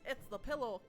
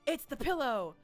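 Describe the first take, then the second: First: It is said in Bones' put-on character voice. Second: It is said in a plain, normal voice.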